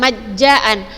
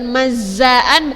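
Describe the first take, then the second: First: The middle consonant sounds like a j. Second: The middle consonant sounds like a plain z. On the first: "bukan majjaan" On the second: "bukan mazzaan"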